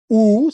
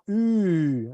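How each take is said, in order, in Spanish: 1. Vocal posterior redondeada, como la u española. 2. Vocal anterior redondeada, como la u francesa. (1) "no es una U" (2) "sino una U"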